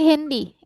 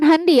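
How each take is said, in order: First: The word is said like English handphone. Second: The word is read with German vowel sounds. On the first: The speaker calls it right. "Ini kesingkatan dari kata handphone" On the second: The speaker calls it wrong. "ingat bukan handy ya"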